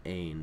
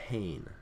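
First: Ain starting straight on the vowel; ain, smooth onset without aspiration; no H sound. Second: Hain with an audible H at the start; hain, opening on H before the vowel; rough breathing. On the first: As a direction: say ain with no H in front. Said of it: "rather than ain". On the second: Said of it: "adds an H sound at the beginning". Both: Shown as a demonstration.

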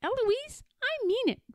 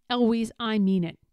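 First: Very high, squeaky parroting; mock shout. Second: Stern tutor, shout held in; firm warning without real volume; mild narrated shout. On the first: Eloise right after her tutor, high mock shout. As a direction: echo it high without volume. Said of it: "And then I shout". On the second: Tutor losing patience with Eloise, an understated shout. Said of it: "And then he shouts". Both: A narrator's reading.

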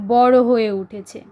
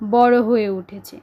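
Both takes have the same delivery.

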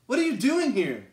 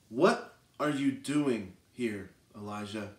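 First: Raised, pressing question to Elijah; God's demanding question. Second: Soft, slow, low whispered question; gentle whisper. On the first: God confronts the hiding prophet, raised and pressing. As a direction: press him hard, pitch up. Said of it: "And Elijah says". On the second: God speaks softly to Elijah in the cave, slow gentle whisper. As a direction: whisper it slowly, close by. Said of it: "the sound of a gentle whisper". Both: Acted.

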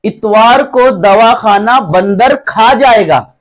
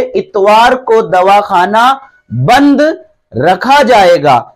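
First: Slow reading with बंदर joined as one word before खा जाएगा; misspaced reading. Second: Slow, spaced reading with pauses around बंद; बंद set apart, then रखा as one word, falling on जाएगा; correct word breaks. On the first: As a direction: run बंद and र together as बंदर, then खा जाएगा. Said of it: "तो ये क्या लिख उठा". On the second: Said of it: "असल में ये लिखा हुआ है". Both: Shown as a demonstration.

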